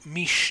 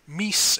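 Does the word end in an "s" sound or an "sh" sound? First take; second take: sh; s. First: The word ends with an sh sound. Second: The word ends with a plain s sound. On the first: This is the southern form. "and mish in the South" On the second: This is the northern form. "would tend to be pronounced mis in the North"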